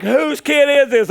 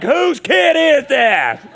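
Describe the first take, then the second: First: Loud, high and drawn-out disbelief; mock outrage. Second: Louder, very slow, high mock disbelief; feigned shock. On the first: Onlookers asking about the peeing boy, loud mock shock. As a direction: play the scandalized crowd, raised and loud. Acting out the shocked pool crowd. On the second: Dad disowning his son before the crowd, exaggerated loud shock. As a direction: stretch it out loud as if the kid isn't yours.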